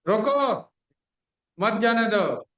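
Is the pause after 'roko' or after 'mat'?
after roko. The pause comes after 'roko'.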